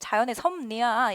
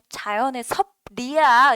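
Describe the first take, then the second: First: The second syllable of 섭리 starts with N. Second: The second syllable of 섭리 starts with L. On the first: The speaker calls it right. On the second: The speaker calls it wrong.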